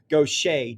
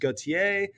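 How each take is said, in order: First: The name is said with a Cajun French pronunciation. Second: The name is said with a standard French pronunciation. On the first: "Cajun French uh, perversion of Gautier becomes Gaucher" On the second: "the French pronunciation is Gautier"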